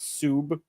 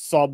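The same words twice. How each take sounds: First: The vowel is long, as in 'tube'. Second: The vowel is short, as in 'tub'. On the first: It is the usual way most people say it. "not sub" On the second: It follows the spelling, as some regional speakers say it. "it looks like it should be pronounced sub"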